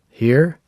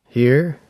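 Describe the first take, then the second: First: The voice sounds thinner, with less low end. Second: The voice sounds louder and boomier, with more bass.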